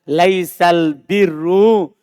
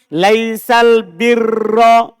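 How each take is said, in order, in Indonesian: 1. Kata kedua berakhir dengan vokal u. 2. Kata kedua berakhir dengan vokal a. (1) "Kalau dibaca rofa" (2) "Dibaca nasab"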